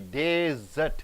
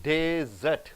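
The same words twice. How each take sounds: First: The stress is on the first syllable. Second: The same.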